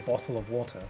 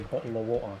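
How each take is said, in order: First: The T sounds are clearly pronounced in the words. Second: The T sounds are dropped from the words. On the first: This is how the speaker normally talks. "I say bottle of water" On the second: This is how others expected the speaker to talk. "they don't pronounce the T"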